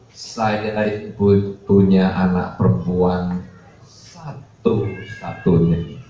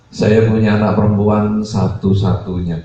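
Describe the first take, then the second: First: Halting, slow mock weeping; imitated tearful parent. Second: Said in the usual way. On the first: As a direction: draw it out as if choking back tears. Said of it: "mewek-mewek".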